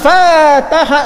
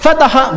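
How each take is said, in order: First: The first vowel is long. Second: The first vowel is short. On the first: They opened to each other. "beda sedikit sudah beda" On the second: Someone opened something. "fataha pendek"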